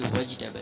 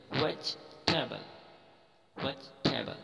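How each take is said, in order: First: "वेजिटेबल" with a full "ji" in the middle; wrong pronunciation. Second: "वेजिटेबल" as vech-teb'l, no "ji"; correct pronunciation. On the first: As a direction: say "वेजिटेबल" as ve-ji-tay-bal. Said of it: "ना कि वेजिटेबल है". ("वेजिटेबल", बीच में पूरा "जि") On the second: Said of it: "इसको अलग-अलग पढ़ेंगे". ("वेजिटेबल" को "वेज-टेबल" की तरह) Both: Shown as a demonstration.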